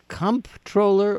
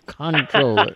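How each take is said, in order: First: The first syllable is said as comp. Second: The first syllable is said as con. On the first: "it's comp, C-O-M-P" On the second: "pronouncing it like it's spelled con, C-O-N, is totally appropriate"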